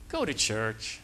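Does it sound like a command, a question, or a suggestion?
suggestion. It is said as a gentle, advising suggestion. The speaker is recommending that you go. "that's a suggestion"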